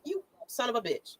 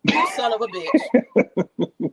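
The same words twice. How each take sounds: First: A quiet, disbelieving swear at his own screen; muttered curse. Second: Louder, slow, drawn out, breaking into a laugh; laughing outraged curse. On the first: Retelling his first reaction to the tweet, muttered under his breath. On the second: Still retelling his reaction to the tweet, now slow and laughing. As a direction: let the swear stretch out as the laughter takes over. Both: Retold or imitated. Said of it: "I was like".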